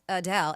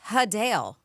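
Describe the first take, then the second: First: The name starts with uh and ends in del. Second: The name starts with huh and ends in dale. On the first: This is the common way people say the name. The speaker calls it wrong. "Not like U H D E L" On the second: This is how the singer herself says the name. The speaker calls it right. "H U H is how you're supposed to pronounce it, D A L E"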